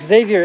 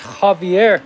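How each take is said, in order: First: The name begins with a z sound. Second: The name begins with an h sound. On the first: The speaker calls it wrong. "his name's not Xavier" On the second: The speaker calls it right. "It's Javier. It's spelled with an X"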